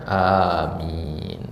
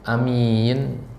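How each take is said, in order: First: The first vowel is held long. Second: The first vowel is kept short. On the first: It is the word said to ask that a prayer be granted. The speaker calls it right. "harus baca panjang" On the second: It means a trustworthy person. The speaker calls it wrong. "Kalau dibaca pendek"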